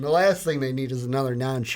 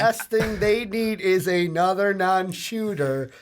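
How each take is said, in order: First: It is read at a faster pace. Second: It is read at a slower pace.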